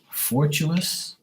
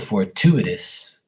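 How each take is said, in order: First: The word is said with three syllables. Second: The word is said with four syllables. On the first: The speaker calls it wrong. "I said fortuous" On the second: The speaker calls it right. "Oh, fortuitous"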